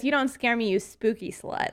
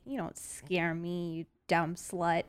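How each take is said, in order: First: Light, normal-volume teasing taunt; playful taunt. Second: Slow, quiet, low defiant taunt; low menacing taunt. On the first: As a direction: toss it off with a grin. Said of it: "I'll say this". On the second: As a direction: stare it down and sneer it softly. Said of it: "I can look it in the eyes and I can say". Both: Pretend.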